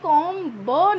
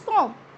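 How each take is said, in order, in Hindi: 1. अंतिम b ध्वनि बोली जाती है। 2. अंतिम b ध्वनि मूक रहती है। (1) "हमें कॉम ब नहीं बोलना है" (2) "इट्स कॉम"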